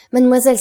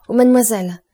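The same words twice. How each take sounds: First: Higher and louder, building eagerness; even louder cry. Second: Excited cry. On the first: Franz to Valentine, calling again even louder. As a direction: repeat it with rising urgency. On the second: Franz to Valentine, a loud hopeful cry. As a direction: call out in sudden hope. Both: A narrator's reading. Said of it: "s'écria Franz".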